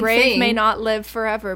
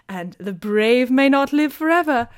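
First: It is spoken in the speaker's normal American accent. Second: It is spoken in a put-on British accent. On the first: "Why do all of these quotes sound like they need to be in a British accent?" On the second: "That's just me imitating Lady Whistledown"

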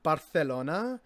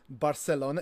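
First: The c is said with a lispy th sound. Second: The c is said with a plain s sound. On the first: This is the way it is said in Spain. The speaker calls it right. "almost lispy" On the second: This is not the way it is said in Spain. The speaker calls it wrong. "it's not Barcelona"

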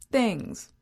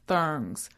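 First: The word is said with its ordinary pronunciation. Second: The word is said in a quirky, distorted way.

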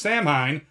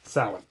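First: The name is read just as it is spelled. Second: The name is read unlike its spelling. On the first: The speaker calls it wrong. "So you probably pronounced it as Samhain. That is not correct" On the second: The speaker calls it right. "It is technically pronounced Samhain"

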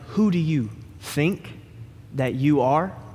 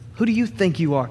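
First: It sounds like a sincere, curious question. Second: It sounds indignant and confrontational.

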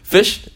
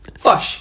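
First: The word has an ordinary short i vowel. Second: The vowel is shifted, so it sounds like fosh. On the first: "instead of" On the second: "how to do a New Zealand accent"

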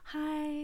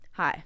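First: It is said in an eager, friendly way. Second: It is said in a dry, flat way.

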